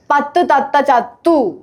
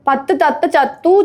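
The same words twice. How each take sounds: First: Unhurried, word by word; slower tongue twister. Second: Quick run through the twister; speedy tongue twister. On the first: Telling a friend slow is fine, unhurried. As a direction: give each word its own beat. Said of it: "മെല്ലെ പറഞ്ഞാ മതി". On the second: Urging a friend to say it fast, demonstrating quickly. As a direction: rattle it off without gaps. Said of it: "speed പറയൂ". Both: Shown as a demonstration.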